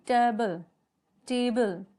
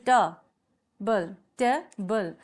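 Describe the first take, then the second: First: टेबल carefully, tay-bul, pausing between repeats; teacher sounding out टेबल slowly for counting; pronunciation demo. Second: ट, pause, बल, each a separate beat; syllable split. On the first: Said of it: "देखते हैं". (टेबल को टे-बल, साफ़-साफ़ बोलें) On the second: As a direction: break the word into ट and बल. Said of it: "sound करेगा". (ट और बल को अलग-अलग बोलें) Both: Shown as a demonstration.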